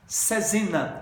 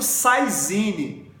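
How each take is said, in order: First: The word is said in a French way. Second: The word is said in a non-French way. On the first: The speaker calls it right. "a pronúncia em francês é Cesina, essa é a pronúncia correta" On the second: The speaker calls it wrong. "o pessoal fala muito Saizine"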